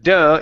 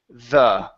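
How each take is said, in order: First: It starts with a hard d sound. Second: It starts with a soft th sound. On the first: The speaker calls it wrong. "cannot do duh" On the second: The speaker calls it right. "make sure that you're pronouncing a th with your tongue"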